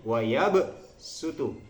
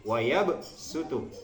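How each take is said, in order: Both takes have the same delivery.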